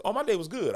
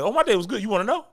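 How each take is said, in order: First: Said in the usual way. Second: Higher and louder, taken aback; startled, overeager reply; shocked. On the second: Retold or imitated. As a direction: blurt it like the question caught you off guard. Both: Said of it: "I'd be shocked".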